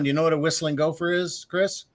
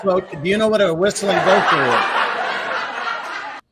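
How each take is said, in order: First: Said in the usual way. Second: Slow, louder, the laugh still in the words; asked while still laughing at the last joke; laughing through it. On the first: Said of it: "Last one". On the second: Real, not acted. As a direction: giggle out the question. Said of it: "I'm slow on that laugh track".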